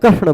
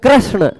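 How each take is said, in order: First: The first syllable has a plain 'r'. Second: The first syllable has the vowel 'ri'. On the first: The speaker calls it wrong. "बहुत सारे लोग कृष्ण बोल जाते हैं" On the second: The speaker calls it right. "री बोलना है"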